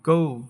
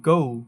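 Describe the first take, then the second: No difference in how they are said.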